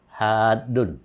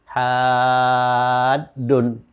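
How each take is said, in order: First: The first vowel is held only briefly. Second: The first vowel is held very long. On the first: This is the reading outside the Quran. "kalau bukan dalam Al-Qur'an ini cukup dibaca hadun" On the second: This is the Quranic recitation reading. "dalam Al-Qur'an ini ha ini dibaca paling panjang ini, enam harakat"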